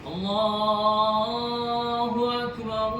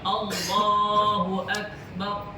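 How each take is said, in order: First: The glottal stop before Akbar is softened away. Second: The glottal stop before Akbar is clearly pronounced. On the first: The speaker calls it wrong. "Makhraj lari" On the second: The speaker calls it right. "mesti dibaca Allahu Akbar"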